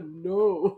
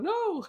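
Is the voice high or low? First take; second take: low; high. First: It is said in a low, strong voice. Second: It is said in a high, weak voice.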